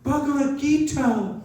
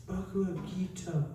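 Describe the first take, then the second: First: Much higher, louder and slow, overjoyed exclamation; delighted cry. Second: Softer, hushed and reverent, clutching it close; tender murmur. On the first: Old woman spots the holy book, high and thrilled. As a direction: cry out the title as if finding treasure. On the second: Old woman hugs the book to her chest, soft and moved. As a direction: say it gently like holding something precious. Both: Retold or imitated. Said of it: "And she says".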